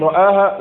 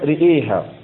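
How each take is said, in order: First: The first vowels are open 'a'. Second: The first vowels lean toward 'e'. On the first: "بفتح الحرفين" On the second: "وله الإمالة"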